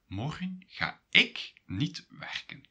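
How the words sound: The stress is on "ik".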